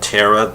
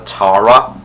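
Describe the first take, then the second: First: Said in the usual way. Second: Tara said "TAH-ruh"; British-style TAR-uh. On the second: Shown as a demonstration. Fan cites Giles's name for her, Tara as TAH-ruh. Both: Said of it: "Giles always called Tara Tara".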